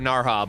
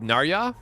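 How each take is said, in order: First: The middle consonant is a soft h sound. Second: The middle consonant is a y sound. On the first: "I gotta call her Narha" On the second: "What if it's Ya? ... I think that's worse"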